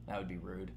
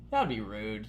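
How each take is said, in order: First: Much softer, low mumbled That would be rude; tossed-off undertone after the joke; quiet aside. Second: Said in the usual way. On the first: Shown as a demonstration. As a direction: drop the voice to a murmur for That would be rude.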